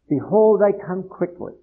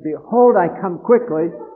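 First: It is said at normal volume. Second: It is said loudly, with a raised voice.

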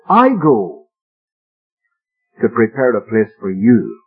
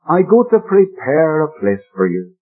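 First: The stress falls on the word go. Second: The stress falls on the word prepare. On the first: The going itself is the preparation of the place. The speaker calls it right. "put the emphasis a different way, and you read it like this" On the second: The focus is on a long work of preparing the place. The speaker calls it wrong. "the way it is usually quoted and usually read ... the emphasis is on the preparing"

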